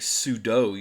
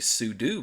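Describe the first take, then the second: First: The last syllable does not sound like 'do'. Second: The last syllable sounds like 'do'. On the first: The speaker calls it wrong. "you should not say sudo" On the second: The speaker calls it right. "you should say sudo because the command is substitute user do"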